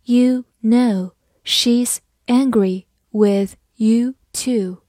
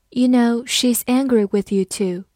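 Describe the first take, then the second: First: Slow, firm word-by-word reading; slow model sentence with pauses between words. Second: Said in the usual way. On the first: Shown as a demonstration. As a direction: say each word separately and slowly. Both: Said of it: "我们再慢慢来读一遍".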